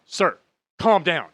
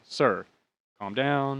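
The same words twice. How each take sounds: First: Slow, loud, high mock scolding; imitated yelling. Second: Said in the usual way. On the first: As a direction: imitate an agent firmly ordering a passenger. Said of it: "she's yelling at me". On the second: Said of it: "She's like".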